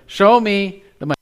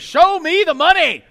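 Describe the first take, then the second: First: It is said plainly, as a calm request. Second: It is shouted like Jerry Maguire's movie line.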